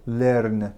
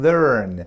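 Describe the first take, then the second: First: Learn with a flat Persian r, said slowly; wrong learn. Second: Learn slowly, with the r drawn back; correct learn. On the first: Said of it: "نگیم learn". (learn را آهسته با ر فارسی بگو) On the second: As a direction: stretch learn out with an American r. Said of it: "بگیم learn". (learn را آهسته و با آر آمریکایی بگو) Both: Shown as a demonstration.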